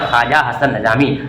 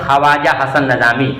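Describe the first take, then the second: First: The 'w' after 'kh' is silent. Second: The 'w' after 'kh' is pronounced. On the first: This is how the name is read aloud. "पढ़ते हैं" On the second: This is how the name is written. "लिखते हैं"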